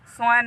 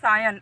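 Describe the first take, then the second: First: It is said as one syllable, like 'swan'. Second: It is said as two syllables, 'sigh-un'. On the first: The speaker calls it wrong. "स्वान नहीं" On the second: The speaker calls it right.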